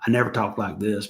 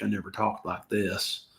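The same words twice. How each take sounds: First: Said in the usual way. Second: Slow, drawn-out Southern accent on "I never talked like this". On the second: Shown as a demonstration. Vlogger showing viewers his Southern accent, slow and drawn out. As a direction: lay on a Southern accent, slowly. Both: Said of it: "I wasn't trying to pull a Southern accent".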